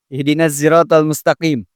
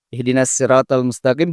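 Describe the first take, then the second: First: 'Sirat' begins with a z sound. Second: 'Sirat' begins with a plain s sound. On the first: "bisa juga pakai zai" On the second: "juga pakai sin"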